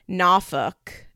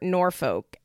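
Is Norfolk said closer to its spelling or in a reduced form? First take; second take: reduced; spelling. First: The name is said in a reduced, local-sounding form. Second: The name is said fully, following its spelling. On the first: This is how a local family member says it. "as my mother would call it" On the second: This follows the written form of the name. "as it's spelled"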